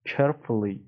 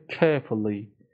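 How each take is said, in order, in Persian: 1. لهجه آمریکایی، با تلفظ صدای r. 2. لهجه بریتانیایی، بدون صدای r، و مصوت کمی کشیده. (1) "تلفظ آمریکاییش هم که شد" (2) "تلفظ بریتانیاییش میشه carefully"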